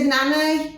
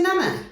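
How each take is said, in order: First: Put-on a light, matter-of-fact child's voice; toddler's plain answer. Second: High, disbelieving repeat of the word; startled echo. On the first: Toddler telling mum who she plays with, lightly voiced. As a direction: answer like a two-year-old stating a fact. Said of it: "She said". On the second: Retold or imitated. Mum hearing her daughter name her dead mother, surprised. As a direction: echo it back in shock.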